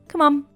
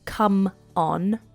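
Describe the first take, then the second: First: The two words run together as one. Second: The two words are said separately. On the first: "you can say come on" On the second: "as two separate words"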